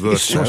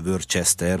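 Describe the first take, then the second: First: It is said the short English way. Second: It is read letter by letter, Hungarian style. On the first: The speaker calls it right. "hanem Worcester" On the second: The speaker calls it wrong. "hogy szép magyarul mondjam"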